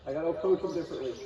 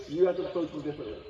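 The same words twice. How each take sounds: First: "approach" leaned on, the rest quick; stress on approach. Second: "You" hit hardest, pointing at the viewer; stress on you. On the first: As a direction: push the word "approach" in "I gotta approach them differently". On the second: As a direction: open strong on "You", then run through quickly. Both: Shown as a demonstration.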